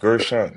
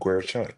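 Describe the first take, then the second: First: The name has no W sound after G. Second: The name has a W sound after G. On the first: The speaker calls it right. "it's like Ger, Gershon, so it's not W" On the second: The speaker calls it wrong.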